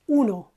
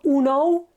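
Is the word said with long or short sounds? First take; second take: short; long. First: The word is said short and crisp. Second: The word is drawn out and long. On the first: The speaker calls it right. "it's short" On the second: The speaker calls it wrong. "It's not uno"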